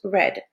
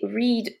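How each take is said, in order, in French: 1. La voyelle est courte, elle rime avec "red". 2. La voyelle est longue, elle rime avec "reed". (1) "au prétérit, mais on le prononce read" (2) "c'est read au présent à l'infinitif"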